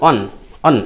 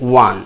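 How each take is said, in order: First: The word starts directly with a vowel. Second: The word starts with a w sound. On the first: The speaker calls it wrong. "আমরা অনেকে হয়তো ভুল করি অন অন এরকম উচ্চারণ করে ফেলি" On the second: The speaker calls it right. "এটা অন নয় এটা হচ্ছে ওয়ান"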